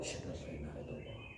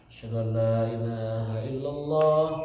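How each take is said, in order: First: The phrase is said quietly, in a low voice. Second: The phrase is said at full, normal loudness. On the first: This is the listener's reply after the caller finishes. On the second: This is the caller's own line.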